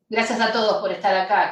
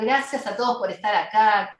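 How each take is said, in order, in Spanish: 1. El saludo suena cansado y desganado. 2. El saludo suena cálido y entusiasta.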